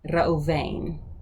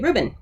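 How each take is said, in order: First: Three syllables, with a 'v' sound. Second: Two syllables, with a 'b' sound.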